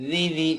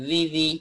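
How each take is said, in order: No difference in how they are said.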